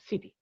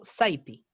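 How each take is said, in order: First: The first vowel sounds like 'it'. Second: The first vowel sounds like 'eye'. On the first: The speaker calls it right. "yo digo city" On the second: The speaker calls it wrong. "yo no digo city"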